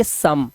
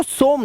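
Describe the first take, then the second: First: सम said with a short a vowel, like "sum"; the right way: सम rhymes with "come"; सम with the short a, not an o; correct pronunciation. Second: सोम said with a long o, as "som"; the wrong way: सोम with an o sound; सोम read as written, long o; wrong pronunciation. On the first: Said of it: "सोम नहीं पढ़ेंगे sir, अब इसे पढ़ेंगे सम". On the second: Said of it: "इसको सोम नहीं पढ़ेंगे". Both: Shown as a demonstration.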